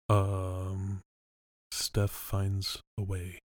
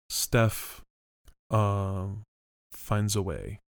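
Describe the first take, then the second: First: The hesitation comes before the first word. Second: The hesitation comes after the first word.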